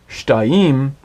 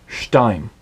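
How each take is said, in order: First: "shtaim" in two syllables, stress shifted onto the final "im"; wrong accent demo. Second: "shtaim" with stress on "shta", light falling "im"; correct accent demo. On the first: Teacher shows learners the mistaken accent, "shtaim" stressed on "im". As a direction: draw out "shtaim" as shta-EEM, accent at the end. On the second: Teacher corrects the accent for learners, "shtaim" stressed on "shta". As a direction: say "shtaim" as SHTA-im, running smoothly into the ending. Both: Shown as a demonstration. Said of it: "the syllable that takes the accent".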